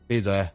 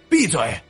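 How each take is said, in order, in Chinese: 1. 是用正常的说话音量说的。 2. 是大声、凶狠地喊出来的。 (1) "先是用正常的音量道了一句" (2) "暴喝一声"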